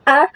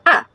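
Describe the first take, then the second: First: A held long, as if three letters; A panjang. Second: A kept short, a single letter's length; A pendek. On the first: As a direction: stretch the vowel A out. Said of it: "tapi dengan tiga huruf". (A dibaca panjang, seperti tiga huruf) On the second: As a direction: say just one brief A. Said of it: "Hanya satu, A-nya". (A dibaca pendek, hanya satu huruf) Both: Shown as a demonstration.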